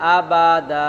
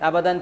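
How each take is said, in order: First: The word ends with a lengthened a vowel. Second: The word ends with an n sound. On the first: The speaker calls it right. "আবাদা টান হবে" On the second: The speaker calls it wrong. "আবাদান থেকে পড়তে হবে আবাদা"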